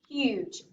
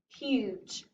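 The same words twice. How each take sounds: First: The word is read somewhat faster. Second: The word is read slowly.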